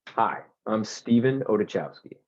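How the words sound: It is said in a friendly, smiling tone.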